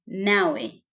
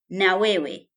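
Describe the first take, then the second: First: It is said as one contracted word. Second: It is said as two full words. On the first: "na wewe becomes nawe" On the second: "na wewe becomes nawe"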